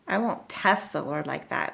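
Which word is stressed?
test. The stress falls on the word test. He is unwilling to ask for a sign at all. The speaker calls it wrong. "he's not saying"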